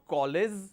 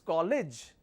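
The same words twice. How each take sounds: First: The word ends with a z sound. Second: The word ends with a j sound. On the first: The speaker calls it wrong. "It's not college" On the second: The speaker calls it right. "It's a j sound, not a z sound"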